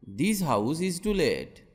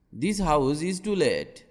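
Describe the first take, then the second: No difference in how they are said.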